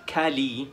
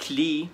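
First: "كالي" in two syllables, "ka-lee"; mistaken full ending. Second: "كلي" as one syllable, "klee"; correct reduced ending. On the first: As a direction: put an open a after k in "كالي". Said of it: "مش كالي". ("كالي" غلط بمقطعين) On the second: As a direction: run k into l in "كلي". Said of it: "نطقناها كلي مش كالي". ("كلي" مقطع واحد) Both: Shown as a demonstration.

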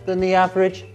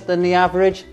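No difference in how they are said.

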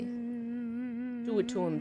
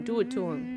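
First: Slow, stretched-out taunt; slow drawn-out. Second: Said in the usual way. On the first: Shown as a demonstration. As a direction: drag each word out slowly.

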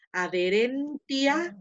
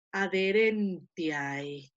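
First: Adherentia dicho despacio, sílaba por sílaba; slow careful Latin. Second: Adherentiae drawn out, final ae as a diphthong; slow careful Latin. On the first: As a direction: say adherentia slowly and clearly. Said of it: "esta palabra que dice". (adherentia, despacio y bien articulado) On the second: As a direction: stretch out adherentiae, ending in ae. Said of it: "la palabra termina ... en ae". (adherentiae despacio, con diptongo ae final) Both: Shown as a demonstration.

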